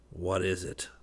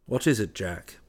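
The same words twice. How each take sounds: First: Understated savage retort, kept down in volume; savage echo. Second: Mild exclamation, falling at the end; cried question. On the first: Trent echoing West's question, with understated savagery. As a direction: throw the question back, softly savage. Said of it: "repeated Trent savagely". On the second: West questioning grumbling Jack, crying out mildly. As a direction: ask it with a mild cry. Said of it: "cried West". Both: A narrator's reading.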